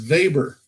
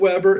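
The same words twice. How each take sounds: First: The name is said in a German way. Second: The name is said in an English way. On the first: The speaker calls it right. "he's German. So apparently it's going to be Alfred Weber" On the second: The speaker calls it wrong. "It's not Weber"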